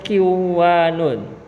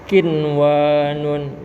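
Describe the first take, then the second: First: The n merges into the following w. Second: The n is pronounced clearly before the w. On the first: The speaker calls it wrong. "tidak boleh dibaca kiwanun" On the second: The speaker calls it right. "tapi dibaca kinwanun. Dibacanya dengan izhar"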